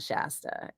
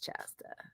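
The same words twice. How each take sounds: First: The name begins with an sh sound. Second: The name begins with a ch sound. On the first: The speaker calls it wrong. "It's not Shasta" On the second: The speaker calls it right. "It's clearly spelled with a C H"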